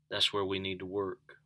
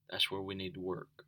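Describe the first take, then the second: First: Said in the usual way. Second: Much softer repeat of That's where we need to work; soft echo. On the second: Real, not acted. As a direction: let it sink in, softly. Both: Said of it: "repeated softer".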